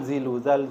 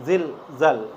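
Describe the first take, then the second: First: A short vowel follows each 'zil'. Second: Each 'zil' is cut off sharply. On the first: The speaker calls it wrong. "Bukan zilu, zal" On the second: The speaker calls it right. "Setiap zil putus zal, tidak ada domahnya"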